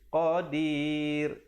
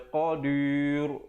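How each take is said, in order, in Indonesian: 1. Bunyi r diucapkan tipis dan ringan. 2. Bunyi r diucapkan tebal dan berat. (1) "dibacakan dengan nipis" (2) "Jangan baca qadir, itu tak betul"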